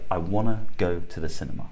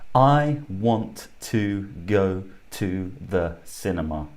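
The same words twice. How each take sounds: First: 'Want to' is reduced to 'wanna'. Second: 'Want to' is said in full.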